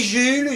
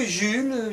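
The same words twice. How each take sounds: First: Jules called with a rising pitch; calling name. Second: Jules falling and quieter; calling name. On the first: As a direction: call out Jules with a questioning rise. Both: Acted.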